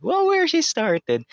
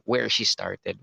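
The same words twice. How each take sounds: First: Very high, loud, drawn-out mock echo; playful high echo. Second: Said in the usual way. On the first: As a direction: sing it out high and slow. Phrase echoed in a silly voice. (pabirong napakatinis na pag-uulit)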